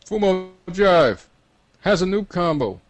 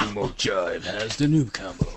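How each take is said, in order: First: High, loud drawn-out call; loud yell. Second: Slow announcer voice at usual pitch. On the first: Acted. Game voice tells everyone who has the combo, loud yell. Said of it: "a loud voice yells to everyone". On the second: Pretend. Game announcer tells players who has the combo, slow announcement. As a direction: announce it slowly, in a put-on voice. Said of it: "So you want an announcement".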